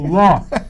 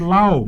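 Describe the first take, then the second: First: The vowel is an open 'aw' sound. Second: The vowel glides like 'ow' in cow. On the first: The speaker calls it right. "L O com acento, law" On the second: The speaker calls it wrong. "muita gente chega e fala assim, lau"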